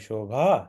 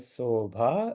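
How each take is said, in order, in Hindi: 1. यह शब्द 'sh' ध्वनि से शुरू होता है। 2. यह शब्द सादे 's' ध्वनि से शुरू होता है।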